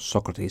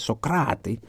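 First: The name has its usual English pronunciation. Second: The name has a Greek-style pronunciation. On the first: The speaker calls it wrong. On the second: The speaker calls it right.

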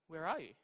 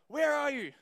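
First: It is said in a gentle tone. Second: It is said in an angry tone.

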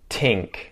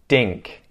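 First: The word begins with a t sound. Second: The word begins with a d sound. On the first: "and then a T sound" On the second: "then a D sound"

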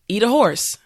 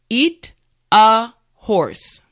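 First: The phrase is said at normal speed. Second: The phrase is said slowly and carefully. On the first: "now let's say it at a normal pace" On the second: "repeat after me"

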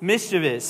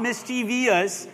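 First: No extra syllable follows the v sound. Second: An extra 'ee' syllable follows the v sound. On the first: The speaker calls it right. "There's no I behind that V" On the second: The speaker calls it wrong. "And it's not mischievous. I've said it like that all my life"

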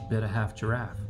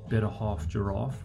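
First: It is said in an American accent. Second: It is said in a South African accent. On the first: The speaker calls it right. "if you say it in a bit more of an American accent" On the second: The speaker calls it wrong. "than a South African accent. Better Half Giraffe doesn't really sound that good"

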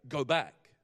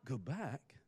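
First: It is said as a forceful exclamation. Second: It is said as a questioning rhetorical query.

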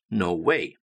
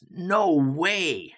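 First: It is said plainly without strong emphasis. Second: It is said with heavy emphasis and force.

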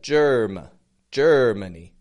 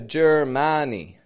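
First: The middle vowel is a weak schwa. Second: The middle vowel is a full, clear vowel. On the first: The speaker calls it right. "Putting that schwa in the middle" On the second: The speaker calls it wrong. "But I'm not giving it a Germani"

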